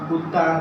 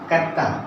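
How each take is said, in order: First: The first vowel is a short 'u' sound. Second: The first vowel is a short 'a' sound. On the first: The word is taken to mean a dog. The speaker calls it wrong. "जैसे कि आमतौर पर हम पढ़ते हैं" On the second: The word means a washerman's beating stick. The speaker calls it right. "इसका सही तलफ्फुज है कत्ता"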